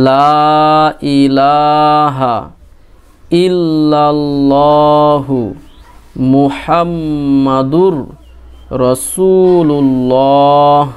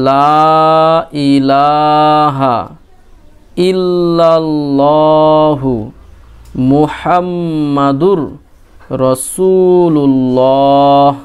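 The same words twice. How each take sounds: Both takes have the same delivery.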